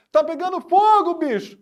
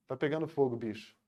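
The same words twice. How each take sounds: First: "fogo" high and very loud; exclaimed shout. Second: "Tá pegando fogo, bicho" low and soft, falling away; unexclaimed statement. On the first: Teacher demonstrating the meme as a true exclamation, shouted. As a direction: burst out with "Tá pegando fogo, bicho" in high excitement. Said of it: "Cara, ele tá exclamando". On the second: Teacher showing how the meme would sound without exclamation, subdued. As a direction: drop all emotion from "fogo", ending very quietly. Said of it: "Ele não fala só". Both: Shown as a demonstration.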